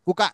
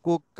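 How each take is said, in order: First: The middle k sound is short and single. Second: The middle k sound is held and doubled. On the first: The speaker calls it wrong. "ఇది కుక్క కాదురా నాయన కుక" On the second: The speaker calls it right. "ఒత్తు పలికితాము అప్పుడు కుక్క"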